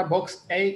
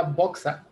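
First: "Vox A" with A as the English letter, "ay"; mistaken name pronunciation. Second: "Voxa" as one word, "BOK-sa"; "Voxa" with a final "sa", not "ay"; makers' name pronunciation. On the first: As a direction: say "Vox A" as two words, ending in "ay". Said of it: "No era Vox A, como le dije". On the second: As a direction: end "Voxa" on an open "ah". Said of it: "Así lo pronunciaron ellos". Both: Shown as a demonstration.

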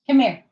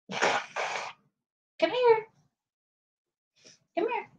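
First: Firm dog call. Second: High soft coaxing call to a dog. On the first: Louder firmer call. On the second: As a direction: sweetly coax the puppy closer. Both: Real, not acted.

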